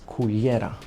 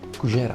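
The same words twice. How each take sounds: First: It is said with a standard Spanish pronunciation. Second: It is said with an Argentinian Spanish pronunciation.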